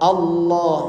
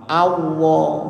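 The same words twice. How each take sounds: First: The l sound is pronounced as a clear l. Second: The l sound is pronounced like a w. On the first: The speaker calls it right. "Lam itu harus metu lam" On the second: The speaker calls it wrong. "Jangan sampai lamnya jadi wawu"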